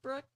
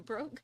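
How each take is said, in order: First: The vowel sounds like the one in 'book'. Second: The vowel sounds like the one in 'boat'. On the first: The speaker calls it wrong. "I want keep wanting to say Brooke" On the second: The speaker calls it right. "and it's Broke"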